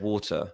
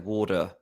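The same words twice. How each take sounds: First: The T is pronounced as a crisp stop. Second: The T is softened into a quick flap. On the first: "instead of water" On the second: "I like roll my T, so I say water"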